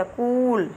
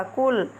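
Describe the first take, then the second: First: कूल with a long, pressed u. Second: कुल with a short, light u. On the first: Teacher showing children the long u in कूल, with more force. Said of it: "थोड़ा जोर लगाना पड़ता है". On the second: Teacher showing children the short u in कुल, said lightly. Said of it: "धीरे स्वर में होता है". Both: Shown as a demonstration.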